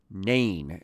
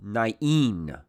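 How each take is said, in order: First: "Nain" as one syllable, NAYN; modern English pronunciation. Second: "Nain" in two syllables, nah-EEN; original-style pronunciation. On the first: Teacher giving the common modern-day English name, "Nain" pronounced NAYN. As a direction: say "Nain" to rhyme with "rain". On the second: Teacher naming the little town, "Nain" pronounced nah-EEN. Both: Shown as a demonstration. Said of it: "as a lot of people pronounce it".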